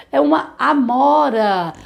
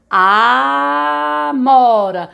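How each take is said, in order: First: Slow, spelled-out teacher voice; slow and clear. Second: Very slow word. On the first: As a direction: say it slowly for the children. (fala devagar e clara) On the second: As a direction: stretch out amora slowly, syllable by syllable. (Amora bem devagar, sílaba por sílaba) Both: Shown as a demonstration. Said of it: "vamos falar devagar a palavra".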